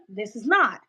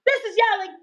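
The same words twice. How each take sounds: First: Said in the usual way. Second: Very high-pitched yell. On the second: Shown as a demonstration. Streamer proves the point to viewers again, yelling. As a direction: yell it sharply upward as a demo.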